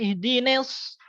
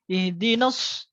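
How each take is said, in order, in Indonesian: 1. Vokal setelah n terdengar seperti e. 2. Vokal setelah n adalah a yang jelas. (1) "jangan sampai ihdines" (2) "Na harus jelas"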